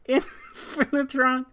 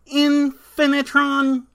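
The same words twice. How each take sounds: First: The name is said in a lively human voice. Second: The name is said in a flat robotic voice.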